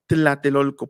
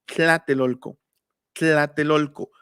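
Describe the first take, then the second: First: Tlatelolco read the Spanish way, t then l; wrong Tlatelolco. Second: Tlatelolco with a lateral tl, tongue held fixed; Nahuatl Tlatelolco. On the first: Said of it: "no pronunciaban". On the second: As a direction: breathe the tl in Tlatelolco past the sides of the tongue. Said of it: "pronunciaban Tlatelolco". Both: Shown as a demonstration.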